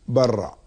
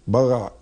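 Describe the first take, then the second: First: The middle consonant is a tapped r. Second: The middle consonant is a throaty gh. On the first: The speaker calls it right. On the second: The speaker calls it wrong.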